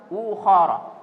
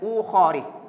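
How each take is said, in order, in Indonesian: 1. Kata ini berakhir dengan vokal a tanpa tambahan. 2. Kata ini berakhir dengan vokal i tanpa tambahan. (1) "Jadi harus ukhara" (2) "tidak boleh ukhari"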